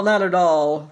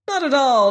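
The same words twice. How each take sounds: First: Gaily. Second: Much higher and louder, gaily dismissive "Not at all". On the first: Scarecrow repeats his reassurance, settling gaily. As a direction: let the second "not at all" settle down. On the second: Scarecrow reassures the pumpkin head, gaily and high. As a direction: toss off "Not at all" with cheerful brushing-aside. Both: A narrator's reading. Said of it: "replied the scarecrow gaily".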